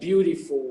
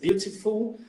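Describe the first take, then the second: First: It is said with an American accent. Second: It is said with a British accent. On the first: The speaker calls it wrong. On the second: The speaker calls it right.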